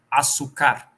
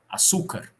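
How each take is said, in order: First: The stress is on the last syllable. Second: The stress is on the middle syllable. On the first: "E se ela fosse oxítona" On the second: "Se ela fosse paroxítona"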